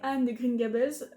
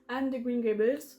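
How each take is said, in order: First: Green Gables is said with a plain French accent. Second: Green Gables is said with a marked foreign accent.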